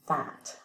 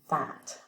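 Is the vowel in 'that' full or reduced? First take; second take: full; full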